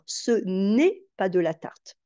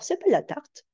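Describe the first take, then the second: First: The negation 'ne' is clearly pronounced. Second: The negation 'ne' is left out entirely. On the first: This is careful, correct French. "on commencerait par mettre la négation entière" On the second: This is casual spoken French. "la négation est malmenée et que bah, elle est tronquée"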